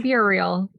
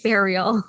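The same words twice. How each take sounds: First: "burial" said as BYUR-ee-ul, following the spelling; spelling pronunciation. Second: "burial" said as BAIR-ee-ul; own pronunciation. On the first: Explaining the spelling to co-host, "burial" said as BYUR-ee-ul. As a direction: say "burial" with a "byoo" start. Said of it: "It's spelled burial". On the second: Explaining her own way to co-host, "burial" said as BAIR-ee-ul. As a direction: open "burial" like the word "bear". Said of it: "but I pronounce it burial". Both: Shown as a demonstration.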